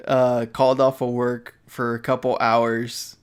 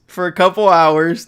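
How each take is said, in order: First: Said in the usual way. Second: "couple hours" louder and higher, emphatic; stress on couple hours. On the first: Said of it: "for a couple hours, not the whole day". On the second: Real, not acted. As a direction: punch "couple" hard and loud. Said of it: "not the whole day".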